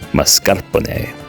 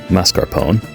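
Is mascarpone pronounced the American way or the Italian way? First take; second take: Italian; American. First: It is pronounced the Italian way. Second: It is pronounced the American English way. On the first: "since this is an Italian dessert, maybe we should call it" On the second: "As an American, I want to just call it"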